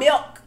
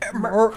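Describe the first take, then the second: First: The word is said with an L sound. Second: The word is said with an R sound.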